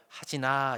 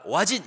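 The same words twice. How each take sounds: First: Gentle call. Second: Loud, higher call of the full name "오하진"; stern call. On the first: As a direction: call him kindly, no threat. (다정하게 이름 부르기) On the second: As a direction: call him like he's about to be scolded. (혼낼 때 성 붙여 세게 부르는 소리) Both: Shown as a demonstration. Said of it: "이렇게 부르는 거하고".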